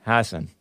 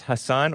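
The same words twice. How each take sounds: First: Hassan as HASS-un; Hassan, weight on the opening syllable; stress on first syllable. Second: Hassan as huh-SAHN; Hassan, weight on the final syllable; stress on second syllable. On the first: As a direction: say Hassan with a short, weak second syllable. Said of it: "or is it pronounced Hassan". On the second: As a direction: say Hassan with a long open "ah" at the end. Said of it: "Is it pronounced Hassan". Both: Shown as a demonstration.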